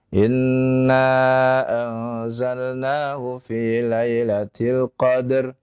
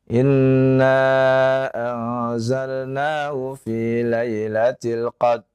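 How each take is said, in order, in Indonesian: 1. Ada vokal yang ditambahkan setelah bunyi d. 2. Bunyi r di akhir dihilangkan. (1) "yaitu menggerakkan huruf dalnya. Ini keliru" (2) "tidak membunyikan huruf ra"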